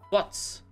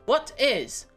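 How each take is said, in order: First: The words are run together into one syllable. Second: Both words are said fully with a catch between. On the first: "É muito mais fácil você pronunciar what's" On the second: "pra você pronunciar tudo, desde o what até o t, e daí você pronunciar o is, depois você tem que dar uma engasgada"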